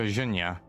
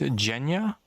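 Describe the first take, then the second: First: The name begins with a soft zh sound. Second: The name begins with a hard J sound. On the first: The speaker calls it right. "It's not a J, but more of a... It's like Je ne je m'appelle in French" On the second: The speaker calls it wrong. "I'm gonna guess that's pronounced Genya"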